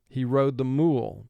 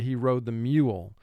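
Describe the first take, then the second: First: The vowel in mule sounds like plain oo. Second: The vowel in mule sounds like yoo. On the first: The speaker calls it wrong. "if it were, the word would be pronounced mule. ... but we don't say that" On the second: The speaker calls it right. "We say he rode the mule. So U is representing the sound Y and O O combined"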